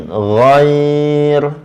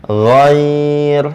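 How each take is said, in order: The two takes are said the same way.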